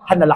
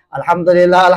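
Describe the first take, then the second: First: It is rushed and clipped, dropping syllables. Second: It is said slowly with every syllable. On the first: The speaker calls it wrong. "Saking kencangnya dia bilang alhamdulillah" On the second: The speaker calls it right.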